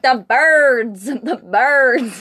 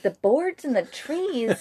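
First: Louder, higher mimicked insistence; insistent correction. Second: Slow, higher questioning repeat; puzzled echo. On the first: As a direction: imitate someone loudly correcting a listener. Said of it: "he's like". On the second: Retold or imitated. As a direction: echo it slowly in disbelief. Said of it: "And I was like".

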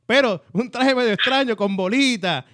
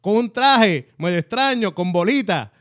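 First: Traje raised and stressed in un traje medio extraño; repeated emphasis. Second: Traje medio extraño drawn out slow and careful, a polite dodge around feo; slow, careful wording. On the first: Repeating the preacher's words for emphasis to the host, traje stressed. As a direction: lift the word traje, con bolita plain. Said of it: "Eso picando adelante es un traje feo". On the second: Retelling the preacher's tactful wording to the host, slow and careful. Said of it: "no quiso decir feo". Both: Retold or imitated.

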